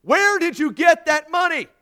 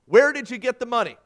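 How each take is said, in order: First: Judge shouting, very high and loud; raised voice. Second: Raised, loud courtroom questioning; firm judge's question. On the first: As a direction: shout the question at a deaf man. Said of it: "The judge raised his voice". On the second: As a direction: put the question loudly and firmly. Judge's first question, before raising voice. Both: A narrator's reading.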